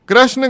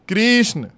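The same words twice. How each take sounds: First: The first syllable has a short a vowel. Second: The first syllable has an ee vowel. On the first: The speaker calls it wrong. "कृष्ण गलत है" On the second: The speaker calls it right. "क्री बोलो, ई की ध्वनि आनी चाहिए"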